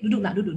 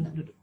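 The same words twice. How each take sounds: First: Said in the usual way. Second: Much softer and lower, coaxing him to sit; soothing a child. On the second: Shown as a demonstration. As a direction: settle an angry child with a hush. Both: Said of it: "Kalau dia lagi marah".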